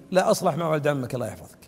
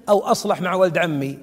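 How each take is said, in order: First: Low, soft and quick reply; quick dismissive answer. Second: Said in the usual way. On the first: Retold or imitated. Sheikh answering the man who asks about his cousin, quick low reply. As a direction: toss the answer back fast and quietly.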